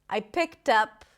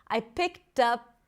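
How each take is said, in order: No difference in how they are said.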